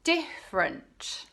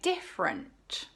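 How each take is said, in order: First: A sound or syllable is dropped. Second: A sound or syllable is dropped.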